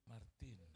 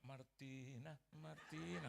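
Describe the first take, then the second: First: Low, softly drawn-out name; gentle calling. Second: Name called out in a sing-out tone; wrong, ungentle calling. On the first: Jesus calling a woman by her name, gently. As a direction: call the name tenderly, unhurried. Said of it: "dengan sebutan yang lembut". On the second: Showing how Jesus would not call her, ungentle. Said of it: "Nggak mungkin dia panggil". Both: Acted.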